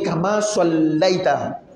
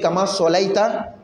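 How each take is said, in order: First: The L sound is doubled and held. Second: The L sound is short, not doubled. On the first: It means giving blessing. The speaker calls it right. "la bonne prononciation" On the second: It means being burned in the fire. The speaker calls it wrong. "Quand tu ne respectes pas"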